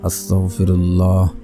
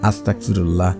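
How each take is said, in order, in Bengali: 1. শব্দটি যত্নসহকারে ও পুরোপুরি উচ্চারণ করা হচ্ছে। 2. শব্দটি অযত্নে ও অশুদ্ধভাবে উচ্চারণ করা হচ্ছে।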